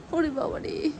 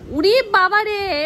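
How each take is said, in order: First: Said in the usual way. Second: Mock wail. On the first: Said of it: "plain first take of exclamation". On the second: Real, not acted. Exclaims as child climbs on her.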